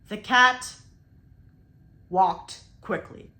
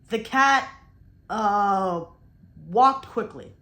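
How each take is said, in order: First: A long silent pause comes after 'cat'. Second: A filler sound 'uh' fills the gap after 'cat'. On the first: The speaker calls it right. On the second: The speaker calls it wrong.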